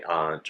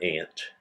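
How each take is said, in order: First: "aunt" with a broad A, like "ahnt"; broad-A pronunciation. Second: "aunt" with a short A, like "ant"; short-A pronunciation. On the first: Dialect quiz asking which you say, "aunt" as "ahnt". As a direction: open the vowel of "aunt" to "ahnt". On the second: Dialect quiz asking which you say, "aunt" as "ant". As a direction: say "aunt" just like the insect "ant". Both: Shown as a demonstration. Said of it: "how do you pronounce".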